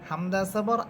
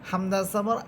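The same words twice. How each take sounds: Both takes have the same delivery.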